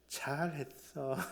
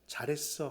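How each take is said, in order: First: It is said in a provoking, needling tone. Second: It is said as simple, plain praise. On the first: The praise hurts and angers the child. The speaker calls it wrong. "이것이 바로 자녀를 노하게 하고 있는 우리의 억양은 아니었는가요?" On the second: The child is simply praised. The speaker calls it right. "그냥 잘했어 하면 되는데"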